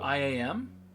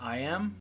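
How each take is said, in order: First: It is spelled out as three separate letters. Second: It is said as the two words I am.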